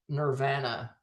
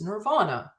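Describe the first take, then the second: First: The 'a' has the speaker's Canadian vowel. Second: The 'a' has the standard, non-Canadian vowel. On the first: The speaker calls it wrong. "I said Nirvana my whole life" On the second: The speaker calls it right. "I'm told it's Nirvana"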